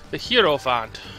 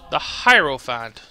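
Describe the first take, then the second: First: It is said like two words, 'hero font'. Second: It is said as one word, 'hierophant'. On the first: The speaker calls it wrong. "I've been saying the hero font. I guess I was wrong" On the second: The speaker calls it right. "So that's how you say it"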